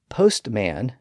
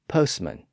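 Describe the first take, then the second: First: The T sound in the middle is pronounced. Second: The T sound in the middle is silent. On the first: This is the older pronunciation. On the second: This is the later dialect pronunciation.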